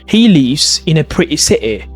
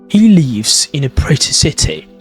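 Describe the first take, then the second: First: The T sounds are replaced by glottal stops. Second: The T sounds are clearly pronounced. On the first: "What about Cockney accent, which is a glottalization?" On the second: "That's in modern received pronunciation"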